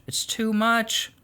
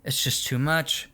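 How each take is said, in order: First: Slow weary emphasis. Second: Said in the usual way. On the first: Real, not acted. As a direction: drag out "It's too much." slowly, leaning on "much". Repeats phrase, slower and weighted.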